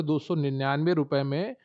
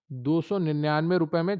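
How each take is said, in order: First: Said in the usual way. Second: सौ in दो सौ निन्यानवे leicht angehoben, mit Nachdruck als Antwort; Betonung auf सौ. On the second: Shown as a demonstration. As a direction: das Wort सौ hervorheben, Preis nachdrücklich wiederholen. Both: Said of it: "कितने रुपए में?".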